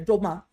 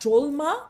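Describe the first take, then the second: First: No L sound is heard before the M. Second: An L sound is heard before the M. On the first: The speaker calls it right. "We kind of almost lose that last letter" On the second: The speaker calls it wrong. "the reason it's not drolma"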